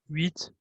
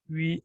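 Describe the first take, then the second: First: The final T sound is pronounced. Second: The final T sound is silent. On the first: The word stands alone. "So here you pronounce" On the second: The word comes before a noun in a sentence. "here you don't pronounce"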